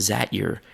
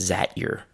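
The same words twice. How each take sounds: The two takes are said the same way.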